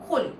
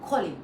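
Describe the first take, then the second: Both takes have the same delivery.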